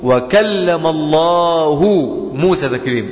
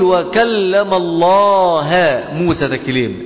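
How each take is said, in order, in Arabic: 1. كلمة Allah تنتهي بصوت u. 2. كلمة Allah تنتهي بصوت a. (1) "إذا من الذي فعل الكلام؟ الله" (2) "إذا الكلام منسوب لمين؟ لموسى"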